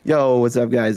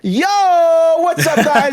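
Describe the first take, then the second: First: It is said at a normal, quiet level. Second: It is said very loudly and energetically.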